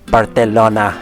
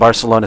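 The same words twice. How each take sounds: First: It is said with a local Spanish accent. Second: It is said with an English accent.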